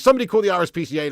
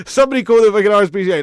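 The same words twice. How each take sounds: First: Said in the usual way. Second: Much louder, fast hammed-up shout; mock outraged shout. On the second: Streamer jokingly yells for help over a viewer's dog joke. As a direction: shout it like a fake emergency call.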